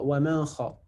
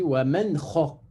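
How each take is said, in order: First: The n sound is hidden or blurred before kh. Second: The n sound is pronounced clearly before kh. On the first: The speaker calls it wrong. "Il y en a qui font l'erreur" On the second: The speaker calls it right. "on prononce clairement"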